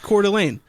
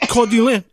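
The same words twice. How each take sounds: First: The name is said with an American accent. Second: The name is said with a French accent. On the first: "When you say words that are French with the American accent, you're like" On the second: "and he's like, oh"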